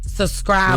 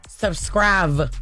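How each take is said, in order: First: The middle consonant sounds like a B. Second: The middle consonant sounds like a V. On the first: The speaker calls it right. "the B is B" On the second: The speaker calls it wrong. "you putting the V there"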